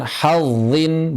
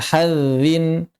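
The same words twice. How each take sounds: First: "hazzin" with a thick, emphatic zz; heavy-zha reading of "hazzin"; correct heavy zha. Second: "hazzin" thinned to "hadzin"; mistaken thin dhal. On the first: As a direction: darken and hold the zz in "hazzin". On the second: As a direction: lighten the zz in "hazzin" to a tongue-tip dh. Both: Shown as a demonstration.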